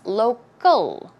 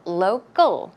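First: The c is softened toward a g sound. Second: The c is softened toward a g sound.

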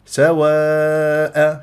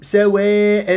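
First: The long a vowel is kept plain and open. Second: The long a vowel is tilted toward e. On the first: The speaker calls it right. "هكذا بهذه الطريقة، ما أميل الألفات" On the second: The speaker calls it wrong. "وما أقول ... لا"

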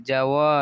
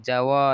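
No difference in how they are said.

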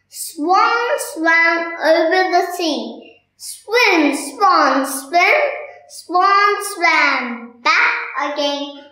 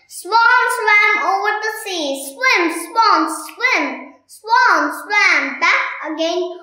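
First: It is said slowly. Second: It is said fast.

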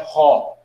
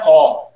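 First: The word begins with a breathy h sound. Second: The word begins directly with the vowel. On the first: The speaker calls it right. "é ró" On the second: The speaker calls it wrong. "aqui não é ó"

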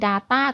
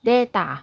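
First: It is said with an English pronunciation. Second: It is said with a Japanese pronunciation.

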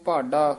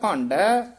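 First: The first vowel is plain, without nasalization. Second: The first vowel is nasalized before the d. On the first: "ਇੱਥੇ ਭਾਡਾ ਹੀ ਉਚਾਰਨ ਕਰਨਾ" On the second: "ਇੱਥੇ ਭਾਂਡਾ ਉਚਾਰਨ ਕਰਨਾ"

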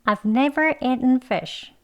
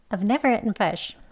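First: The sentence is spoken slowly and clearly. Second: The sentence is spoken fast and reduced. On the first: "천천히 같이 해보겠습니다" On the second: "빨리 더 해볼게요"

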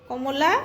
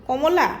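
The two takes are said the same way.

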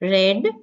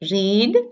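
First: The vowel is short, rhyming with 'bed'. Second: The vowel is long, rhyming with 'need'. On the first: The action happened in the past. "Past tense as read" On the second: The action happens in the present. "present tense we pronounce as read"

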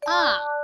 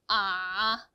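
First: The pitch falls from high to low. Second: The pitch stays low throughout. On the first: "위에서 아래로 떨어지는 음인데요" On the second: "밑에서만 발음을 하는 거예요"

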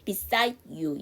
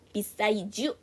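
First: The d stays separate from the following you. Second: The d merges into you, sounding like j. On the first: "이 사람은 그냥 beside you 이렇게 노래를 하죠" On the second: "D를 연음시켜서 beside you 하셔도 되고요"

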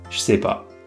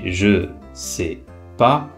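First: The je is contracted and joined to sais. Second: The je is said as a full syllable. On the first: "on a contracté le je" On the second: "on dit je sais pas"

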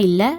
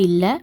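Both takes have the same delivery.

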